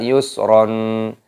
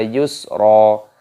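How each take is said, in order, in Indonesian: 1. Kata ini berakhir dengan bunyi n tambahan. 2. Kata ini berakhir dengan vokal, tanpa n. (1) "jangan dibaca yusron" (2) "roknya dibaca yusro"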